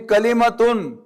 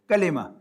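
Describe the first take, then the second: First: The word ends with the full '-tun' ending. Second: The word ends on a plain vowel, no '-tun'. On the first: "this is when you pronounce it fully" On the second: "But I'm now saying kalima"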